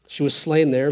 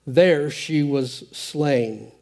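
First: Said in the usual way. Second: Drawn out, each word weighed; slow and grave. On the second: Acted. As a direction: let the death sink in slowly. Dramatic reading of her death.

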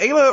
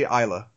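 First: "Ayla" with a long A, as in day; first vowel of "Ayla" rhymes with say; Ayla said AY-luh. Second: "Isla" with a long I, as in eye; first vowel of "Isla" rhymes with sky; Isla said EYE-luh. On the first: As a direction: say "Ayla" starting with AY. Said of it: "is it Ayla or do you say Isla?". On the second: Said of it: "or do you say Isla?". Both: Shown as a demonstration.

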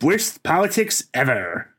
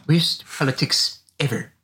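First: A touch of nasal Comic Book Guy; pinched nasal nerd voice, lightly done. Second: Deadpan nerd verdict, slowed down; slow, drawn-out nerd pronouncement; Comic Book Guy voice. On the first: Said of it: "mine was just doing a nasal voice". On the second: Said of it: "You're actually pretty good at that". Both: Pretend.

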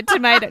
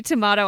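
First: "tomato" with an ay, to-may-to; American tomato. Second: "tomato" with a long ah, to-mah-to; British tomato. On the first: Quoting the old rhyme back, ay-vowel "tomato". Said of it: "I say tomato". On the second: Teasing over how friend says it, ah-vowel "tomato". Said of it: "you say tomato, I say tomato". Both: Shown as a demonstration.

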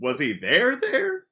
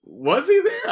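First: First THERE stressed, second THERE shooting up high; questioning "there, there?" with a high rising finish; doubled-word emphasis. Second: High, loud questioning of his presence; high-pitched, doubting outburst; incredulous question. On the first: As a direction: lean on "there", then lift the repeat sharply. Doubled word meaning truly there. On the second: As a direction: pipe up loudly in disbelief. Questioning whether Damon was really there. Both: Retold or imitated.

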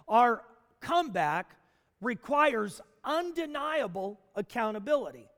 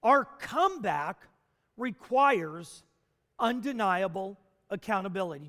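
First: Said in the usual way. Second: Each word set apart with pauses; "Our comeback requires" spaced out, "undeniable accountability" rushed; sermon refrain. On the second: Shown as a demonstration. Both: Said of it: "Just say it with me at home".

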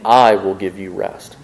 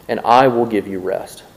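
First: "I" drawn out with weight, against "your"; stress on I. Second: Said in the usual way. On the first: Acted. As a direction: lean on "I" and slow the phrase down. Repeat contrasting I with your wisdom.

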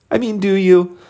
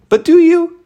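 First: Said in the usual way. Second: High, loud pointed challenge; challenging. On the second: Real, not acted. Coach challenges loan officers, loud and pointed. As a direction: throw the question back at them hard.

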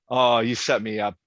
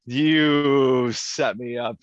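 First: Said in the usual way. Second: Slow emphatic. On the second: Real, not acted.

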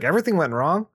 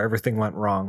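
First: "Everything went wrong?" pitched higher, rising at the end; questioning echo. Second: Said in the usual way. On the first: Retold or imitated. Bruce questions Alfred's words, doubting rise on "Everything went wrong". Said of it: "And he's like". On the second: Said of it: "He's like".

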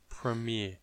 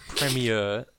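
First: Premiere said slowly as "prih-MEE-uh"; soft, slow premiere, stressed on "MEE"; corrected pronunciation of premiere. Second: Premiere said as "PREM-ee-uh"; mispronunciation of premiere. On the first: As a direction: premiere with a weak first syllable, "prih-MEE-uh". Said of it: "It's premiere". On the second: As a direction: stress the first syllable of premiere, "PREM-ee-uh". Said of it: "No, it's not premiere". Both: Shown as a demonstration.

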